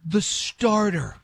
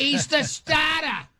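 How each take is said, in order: First: "starter" said slowly with the R sounded; drawn-out, higher "starter" with a full R; R pronounced. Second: High, slow New England "stah-tah"; mock New England local, R's dropped, pitched way up; insane New England accent. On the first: Shown as a demonstration. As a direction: spell out "starter" by ear, clear R, higher pitch. Repeats word with the R sounded. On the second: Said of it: "never heard an accent so insane".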